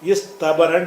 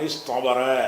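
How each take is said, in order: First: The t after s is a plain t. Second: The t after s is an emphatic t. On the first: The speaker calls it wrong. "அப்படி சொல்ல மாட்டாங்க" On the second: The speaker calls it right. "அப்போ இந்த தா வந்து தோயா மாறிக்கணும்"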